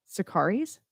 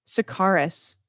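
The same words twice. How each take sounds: First: Sakaris ending in "-eez", tune rising; alternative pronunciation, questioning. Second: Sakaris ending in a short "-iss", tune falling; one possible pronunciation. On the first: Radio host unsure of a band name, questioning "-eez" ending. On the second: Radio host guessing a band name, Sakaris with "-iss" ending. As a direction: say Sakaris as "suh-KAR-iss", settling downward. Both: Shown as a demonstration. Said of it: "I think that's how you say it".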